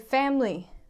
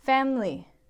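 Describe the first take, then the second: Both takes have the same delivery.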